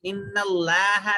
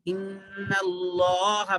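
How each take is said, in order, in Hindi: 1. Allah में L हल्का और पतला है। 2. Allah में L मोटा और भारी है। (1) "इन्नल्लाह नहीं पढ़ेंगे" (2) "इन्नल्लाह मोटा पढ़ेंगे"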